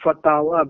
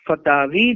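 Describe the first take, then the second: First: The word ends with an 'ah' vowel. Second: The word ends with an 'ee' vowel. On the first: "वाव के फतहा और अलिफ मकसूरा के साथ" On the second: "वाव के कसरे के साथ"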